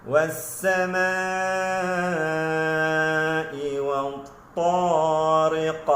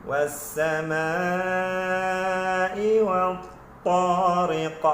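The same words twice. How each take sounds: Both takes have the same delivery.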